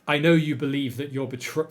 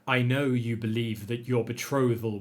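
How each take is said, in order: First: It is read in the speaker's ordinary voice. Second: It is read in a low, menacing character voice.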